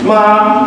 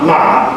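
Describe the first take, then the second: First: It is said with the first tone. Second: It is said with the third tone.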